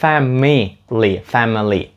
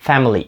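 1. Кожен склад вимовляється повністю, включно з середнім голосним. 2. Середній голосний майже випадає, склади зливаються разом. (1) "в слові family ви не кажете family" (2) "Майже так, якби там не було літери I. Family. І це правильно"

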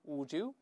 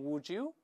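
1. 这两个词连在一起，读成一个j音。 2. 这两个词连在一起，读成一个j音。

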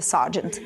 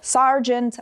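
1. Звук r ледве помітний. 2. Звук r вимовляється чітко. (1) "в британському цей «р» буде непомітно" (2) "в американському варіанті там буде явно виражений звук «р»"

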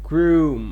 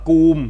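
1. คำว่า groom มีเสียง r หลังตัว g 2. คำว่า groom ไม่มีเสียง r หลังตัว g (1) "ต้องออกเสียงตัว r ด้วย" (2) "เด็กบางคนอาจจะไปอ่านว่า"

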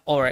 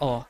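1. R di akhir diucapkan. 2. R di akhir dihilangkan. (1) "di American itu kan" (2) "Kalau di British bilangnya"

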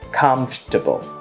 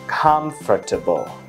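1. Từ "comfortable" đọc là ba âm tiết. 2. Từ "comfortable" đọc là bốn âm tiết. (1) "trong văn nói người ta đọc là comfortable, chỉ có 3 âm thôi" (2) "cách đọc đúng của từ này nếu như chuẩn ở trong từ điển"

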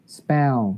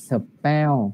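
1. Từ này được đọc thành một âm tiết ngắn, nhanh. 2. Từ này được tách thành hai âm tiết. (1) "Thì chỉ là như này" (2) "Đọc như thế là thành hai âm mất rồi"

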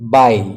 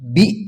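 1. ಈ ಸ್ವರ 'eye' ರೀತಿ ಕೇಳಿಸುತ್ತದೆ. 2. ಈ ಸ್ವರ 'ee' ರೀತಿ ಕೇಳಿಸುತ್ತದೆ. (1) "ಬೈ ಬೈ" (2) "ಇದು ಬಿ ಅಲ್ಲ"

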